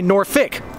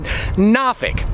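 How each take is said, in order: First: The second syllable is reduced to fik. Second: The first syllable is nah, without an r. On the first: Most local people say it this way. "Most people, like me, say Norfolk, F-I-K" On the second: Older locals say it this way. "Some of the old-timers even pronounce it Nafik. N-A-H-F-I-K"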